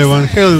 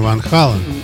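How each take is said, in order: First: The second word has an 'ay' vowel. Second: The second word has an 'ah' vowel. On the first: This is the Americanized form of the name. "их стали произносить на американский манер" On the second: This is the original Dutch form of the name. "в Голландии-то они Ван Хален"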